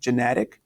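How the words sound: It is said in a North American accent.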